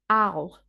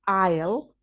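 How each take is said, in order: First: The contraction is reduced even further. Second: The contraction is said with a reduced vowel. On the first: "or even I'll" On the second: "that's often pronounced I'll"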